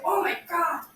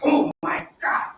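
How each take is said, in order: First: It is said in a happy, pleased tone. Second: It is said in a sad or angry tone. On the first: "Say if you're happy" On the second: "If you're sad, if you're angry"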